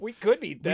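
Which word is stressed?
could. The stress falls on the word could. Winning is possible but not certain.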